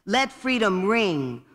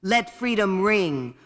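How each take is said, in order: Both takes have the same delivery.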